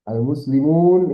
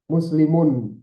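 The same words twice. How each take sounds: First: Al-muslimun drawn out slowly and louder, final n held; pausal plural form. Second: Muslimun said without the al-, lightly stressed as a contrast; wrong form shown. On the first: Teacher showing students the correct plural pausal form, slow and emphatic. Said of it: "itu jamak". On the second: Teacher showing students the form that is wrong, lightly stressed. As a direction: say muslimun as the form to avoid, a little louder. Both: Shown as a demonstration.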